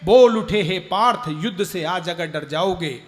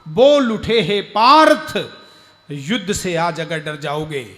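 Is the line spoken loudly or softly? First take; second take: softly; loudly. First: The line is spoken very softly and quietly. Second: The line is spoken at a louder, fuller volume.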